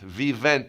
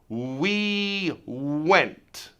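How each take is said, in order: First: The first sounds use teeth on the lip. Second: The first sounds use rounded lips only. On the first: The speaker calls it wrong. "you're not doing it with just your lips" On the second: The speaker calls it right. "Only lips, no teeth"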